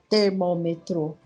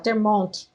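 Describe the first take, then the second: First: The word is pronounced in the standard adult way. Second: The word is pronounced in a child's altered way. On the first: This is the form the child does not use. "ela não fala termômetro" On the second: This is the form the child actually uses. "ela fala termômetro"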